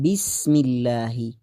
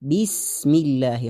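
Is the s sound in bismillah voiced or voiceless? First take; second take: voiced; voiceless. First: The s sound is voiced, without breath. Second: The s sound is voiceless, with breath. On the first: The speaker calls it wrong. "بسم الله اینطور نخوانید" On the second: The speaker calls it right. "خوانده شوه"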